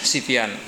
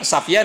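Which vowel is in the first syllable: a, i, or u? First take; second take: i; a. First: The first syllable has the vowel i. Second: The first syllable has the vowel a. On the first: "dengan Sifyan" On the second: "bisa dibaca Safyan"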